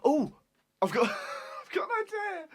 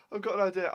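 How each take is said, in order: First: Excited. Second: Said in the usual way. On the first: Real, not acted. Sudden idea during blindfold quiz.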